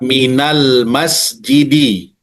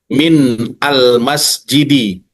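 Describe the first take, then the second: First: The n flows into 'al' with an a vowel. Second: The n stops, then a glottal stop begins 'al'. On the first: "nun ini berubah dari sukun menjadi fathah" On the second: "tetap disukunkan, maka ini dia menjadi hamzah qata"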